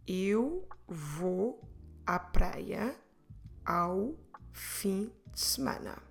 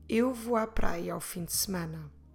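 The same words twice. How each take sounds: First: The sentence is said at a slower pace. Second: The sentence is said at a faster pace.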